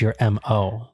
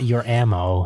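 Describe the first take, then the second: First: It is said as two letters, M O. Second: It is said as one word, ammo. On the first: The speaker calls it right. "it's your M O, like an acronym" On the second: The speaker calls it wrong. "it's not your ammo"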